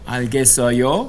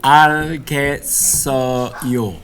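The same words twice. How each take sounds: First: The pitch rises at the end. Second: The pitch falls at the end. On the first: It asks whether the listener understands. "You can change it into a question simply by raising the intonation at the end" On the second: It states that the speaker understands. "알겠어요 means I understand"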